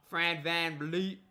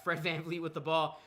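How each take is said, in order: First: "Fred" drawn out with a rising tune; odd rising tune. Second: Said in the usual way. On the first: Real, not acted. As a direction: lift "Fred" up oddly like a question, then "VanVleet". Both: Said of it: "I don't know why I said it like that".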